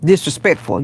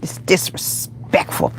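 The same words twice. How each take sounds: First: Said in the usual way. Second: "disrespectful" whispered slowly, syllables drawn apart; slow, voiceless "disrespectful"; emphatic whisper. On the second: Real, not acted. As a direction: hush and stretch "disrespectful" for emphasis. Repeats the word for emphasis.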